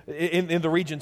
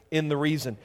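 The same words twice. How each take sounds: First: "region" said correctly as REE-jun; corrected word. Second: "reason" said instead of region, a slip; misread word. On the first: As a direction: fix the slip and say "region" right. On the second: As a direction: read "reason" plainly by mistake, then catch it. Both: Real, not acted.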